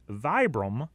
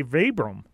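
First: "Vibram" said VY-brum; first syllable of "Vibram" rhymes with "eye"; long-I Vibram. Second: "Vibram" said VEE-brum; first syllable of "Vibram" like "vee"; long-E Vibram. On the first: Host lays out rival company names, "Vibram" as VY-brum. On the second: Host lays out rival company names, "Vibram" as VEE-brum. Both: Shown as a demonstration. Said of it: "how to properly pronounce that company".

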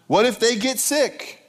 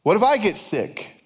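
First: Higher, drawn-out worry up to "sick"; mock freaking out. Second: "I" singled out in mock worry; stress on I. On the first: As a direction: fret theatrically, stretching "what if they get sick". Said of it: "So we start freaking out". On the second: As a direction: turn the worry onto "I" with emphasis. Same worry turned on oneself.

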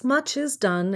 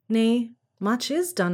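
First: MUCH is done, the weight on "much"; betont auf much. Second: Much IS done, slow with the weight on "is"; betont auf is. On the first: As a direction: hit the word "much" first. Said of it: "answered Santa Claus". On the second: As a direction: stress the word "is", lean on it, slowly. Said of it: "Nay, much is done, I know". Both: Acted.

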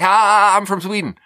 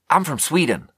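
First: High, loud startled "Ah" then a quick blurt; panicked blurt. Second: Awkward blurt. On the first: Nervous immigrant blurting to a stripper, high and panicky. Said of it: "state of panic to just be like". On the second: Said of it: "Why do you say it like that?". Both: Retold or imitated.

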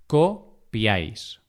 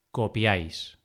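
First: Copiáis broken slowly into co, piáis; syllable by syllable. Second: Said in the usual way. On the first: Shown as a demonstration. Teacher dividing copiáis for learners, syllable by syllable. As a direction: say "copiáis" with a pause after co.

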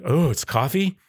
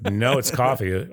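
First: Higher-pitched questioning echo; retold surprise. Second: Drawn-out matter-of-fact answer; retold correction. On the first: Customer learning the beer is coffee, retold surprise. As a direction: customer taken aback, lifting the "Oh". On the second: Vendor answering customers who take it for beer, retold correction. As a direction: correct them slowly, stretching the "No".

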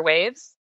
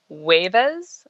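First: Said in the usual way. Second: "huevas" said WAY-vuhz, imitating the son's word for waves; "huevas", the little boy's cute way to say waves; toddler word. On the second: Mother recalls son's mispronunciation, mild imitation. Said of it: "for waves".

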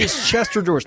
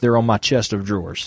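First: "Chester drawers" said as one slurred word; insisting on Chester. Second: "chest of drawers" spelled out with a clear "of"; mock proper version. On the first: Shown as a demonstration. Friend defending "Chester drawers" against the others. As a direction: say "Chester drawers" like CHES-ter DRAWRZ. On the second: Friend mocking the proper "chest of drawers". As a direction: pronounce "chest of drawers" carefully, every word apart. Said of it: "No one says".

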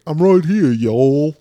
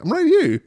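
First: Loud, higher mock Southern drawl; Southern accent. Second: Very high mock boyfriend reply; silly put-on voice. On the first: Boyfriend pops out from a bush, mock Southern accent. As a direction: put on a hammed-up Southern accent. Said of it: "He has a Southern accent". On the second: Boyfriend pops out from a bush, silly high voice. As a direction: squeak it out in comic falsetto. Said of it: "He doesn't talk like that".

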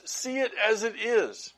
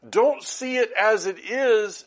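First: Said in the usual way. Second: "don't" 힘주어 강조하며 천천히; stress on don't. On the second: Shown as a demonstration. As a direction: lean on "don't", slow and firm.

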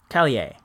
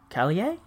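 First: "Callier" low with a falling end; tentative falling take. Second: "Callier" softer, rising at the end; questioning take. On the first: Host testing a singer's surname, "[name]" falling low. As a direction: say "Callier" low, settling downward. Trying out a name's pronunciation. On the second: Host doubting a singer's surname, "[name]" rising softly. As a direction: ask "Callier" as a soft question. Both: Shown as a demonstration.

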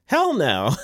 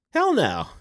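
First: Louder, forceful hell no. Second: Higher, louder hell no; emphatic hell no. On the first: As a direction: bark hell no with a grin. Repeated answer, louder and different timbre. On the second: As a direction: punch hell no out. Emphatic rhetorical answer. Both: Real, not acted.

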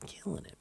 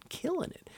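First: Breathy high whispered killing it; whispered hype. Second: Squeaky high killing it; squealed Killing it. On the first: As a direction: hiss it out softly, excited. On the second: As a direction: jump way up in pitch, playful. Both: Acted.

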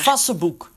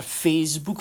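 First: "Facebook" misread as FAS-suh-book; mispronounced Facebook. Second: Said in the usual way. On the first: Shown as a demonstration. Podcast host showing the screen reader's error, "Facebook" mispronounced fas-se-boek. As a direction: say "Facebook" with a short a and an extra middle syllable, fas-se-boek. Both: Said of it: "Ik heb daar Facebook van gemaakt".

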